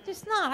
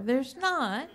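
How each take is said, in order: First: "not" said much higher, insistent and falling; indignant denial. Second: Said in the usual way. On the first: Retold or imitated. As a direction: protest "There's not" with a sharp high "not".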